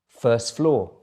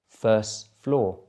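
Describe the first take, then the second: First: It is said at normal speed. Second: It is said a little more slowly. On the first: "once at normal speed" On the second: "the second time a little bit slower"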